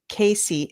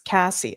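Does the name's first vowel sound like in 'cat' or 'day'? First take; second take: day; cat. First: The first vowel sounds like in 'day'. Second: The first vowel sounds like in 'cat'. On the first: The speaker calls it wrong. "Not Casey" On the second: The speaker calls it right. "it's Cassie"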